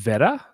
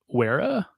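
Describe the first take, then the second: First: The word begins with a V sound. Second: The word begins with a W sound. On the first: The speaker calls it right. "I think it's pronounced Vera" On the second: The speaker calls it wrong. "not Wera"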